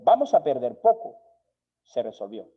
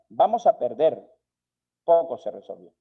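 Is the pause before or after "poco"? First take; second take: after; before. First: The pause comes after poco. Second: The pause comes before poco.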